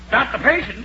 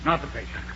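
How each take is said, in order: First: Puzzled, rising not the patient?; puzzled question. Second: Much softer, lower not the patient; quiet realization. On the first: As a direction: ask it back in disbelief. Doctor is puzzled by the news. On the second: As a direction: let it sink in quietly. Doctor takes in the news. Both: Acted.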